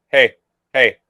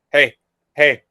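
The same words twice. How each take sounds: The two takes are said the same way.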